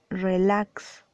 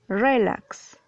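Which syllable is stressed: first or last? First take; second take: last; first. First: The stress is on the last syllable. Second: The stress is on the first syllable. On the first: The speaker calls it right. "Dices relax. Es una palabra aguda" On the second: The speaker calls it wrong. "tú no dices relax"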